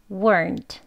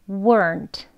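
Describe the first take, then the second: No difference in how they are said.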